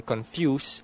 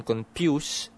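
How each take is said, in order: First: "confuse" as "con-fyoos", slowly; F kept. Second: "confuse" as "con-pyoos", slowly. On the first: Demonstrating the other form, "confuse" as "con-fyoos". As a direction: say "confuse" with a clear F. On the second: Demonstrating mixed-up local sounds, "confuse" as "con-pyoos". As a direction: say "confuse" with a P in place of the F. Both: Shown as a demonstration. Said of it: "Sometimes I can".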